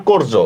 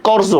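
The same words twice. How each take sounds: First: কর্য with a rounded "o", kor-jo; correct o vowel. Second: কর্য with an open "aw", kawr-jo; wrong open vowel. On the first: Teacher giving students the right form, কর্য with closed "o". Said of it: "এটা কর্য না, কর্য". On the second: Teacher rejecting the spelling reading, কর্য with open "aw". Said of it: "তাহলে এটা কর্য না". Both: Shown as a demonstration.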